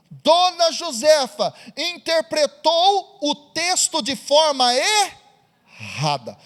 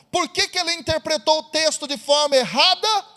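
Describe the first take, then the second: First: "interpretou o texto de forma errada" slowed, each word weighed; slow emphatic point. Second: Said in the usual way. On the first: Shown as a demonstration. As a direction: lean hard on "de forma errada". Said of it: "preacher stresses the lesson". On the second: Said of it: "same phrase as a question".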